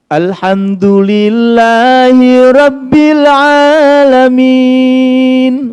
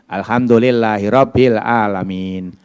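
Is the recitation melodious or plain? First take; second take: melodious; plain. First: It is recited in a melodious, pleasing voice. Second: It is recited in a plain, less pleasing voice. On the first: The speaker calls it right. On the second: The speaker calls it wrong.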